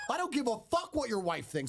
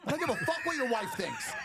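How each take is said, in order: First: Said in the usual way. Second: High, heated comeback; heated retort. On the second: Retold or imitated. Snapping back at the stranger, pitched high.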